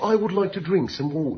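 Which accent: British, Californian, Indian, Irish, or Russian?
British. It is said in a British accent.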